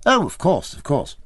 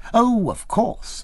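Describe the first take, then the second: First: Quick, higher eager assent; eager agreement. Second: Slow, much higher, stretched-out assent; drawn-out agreement. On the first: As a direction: hurry to sound knowledgeable. Eager to seem informed. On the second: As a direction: draw out the reassurance with a rising sweep. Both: A narrator's reading.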